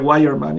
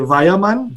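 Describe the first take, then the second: First: The name is said with English pronunciation. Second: The name is said with German pronunciation. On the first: "en inglés sería Wireman" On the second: "En alemán se dice eh"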